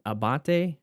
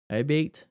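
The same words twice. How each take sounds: First: Abate said uh-BAH-tay, three syllables ending in tay; first try at the name. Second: Abate said a-BATE, two syllables rhyming with late; second try at the name. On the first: Unsure of a group's name, trying Abate as uh-BAH-tay. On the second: Asking viewers to correct him, tries Abate as a-BATE. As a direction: Abate with stress on BATE and a slight questioning rise. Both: Shown as a demonstration. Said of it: "correct me if I say it wrong".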